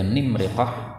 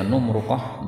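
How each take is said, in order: First: Both main vowels are i sounds. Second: Both main vowels are u sounds. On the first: "nimriqah kasrah semua" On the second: "numruqah dhammah semua"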